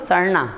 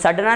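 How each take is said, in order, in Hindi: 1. बीच का व्यंजन एक तेज़ मूर्धन्य फ़्लैप है। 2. बीच का व्यंजन एक कठोर मूर्धन्य स्टॉप है। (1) "मैं क्या बोल रहा हूँ, सड़ना" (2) "मैं सड़ना नहीं बोल रहा हूँ"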